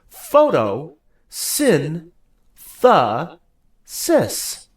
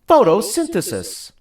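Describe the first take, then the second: First: It is said slowly, broken into four parts. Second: It is said fast as one unbroken word. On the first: "Say it with me" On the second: "Now say it faster and all together"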